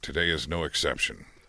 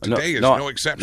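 First: It is said in a plain, natural tone. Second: It is said with exaggerated, forced feeling. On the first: The speaker calls it right. "The first was just natural" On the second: The speaker calls it wrong. "The second time you said it sounded forced"

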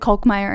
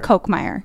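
First: The first syllable does not sound like 'Coke'. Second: The first syllable sounds like 'Coke'. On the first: The speaker calls it wrong. "that's not how you say your last name" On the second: The speaker calls it right. "like a Diet Coke"

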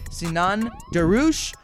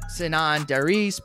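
First: The name is said with a Turkish pronunciation. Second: The name is said with an English pronunciation. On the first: This is the name's original pronunciation. The speaker calls it right. "we're going to go with this Turkish pronunciation there" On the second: This is how most people say the name. The speaker calls it wrong. "everyone says Sinan Darouche"

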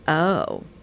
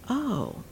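First: The tone is doubtful and unconvinced. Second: The tone is warm and understanding. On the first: The listener is skeptical about what they heard. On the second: The listener now grasps and accepts the idea.

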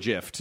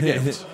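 First: The word begins with a soft J sound. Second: The word begins with a hard G sound. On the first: "some people call it a" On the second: "I call it a gift with a hard G"

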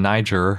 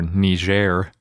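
First: The word is pronounced the English way. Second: The word is pronounced the French way.

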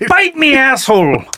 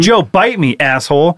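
First: It is said in a put-on pirate voice. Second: It is said in a plain normal voice.

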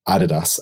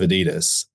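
First: The name is pronounced the original German way. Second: The name is pronounced the American English way. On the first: "I'm being true to the original pronunciation" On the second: "you're Americanizing it for us"

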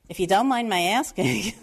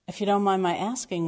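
First: It is said in a heavy New York accent. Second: It is said in a neutral accent.

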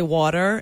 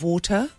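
First: It is said in an American accent. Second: It is said in a British accent. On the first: The local way of speaking has been picked up. "Now I say water" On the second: This is the original home way of speaking. "instead of water"

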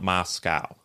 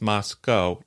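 First: The last syllable rhymes with cow. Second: The last syllable rhymes with go. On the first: The speaker calls it wrong. "not Moscow" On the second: The speaker calls it right. "It's Moscow"

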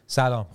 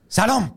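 First: The greeting is said in a natural everyday tone. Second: The greeting is said in an exaggerated, odd tone. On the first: This is how the greeting is really said. The speaker calls it right. "Persian people when we say hi, it's like" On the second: This is how films portray the greeting. The speaker calls it wrong. "If it's in like a movie, it's like"

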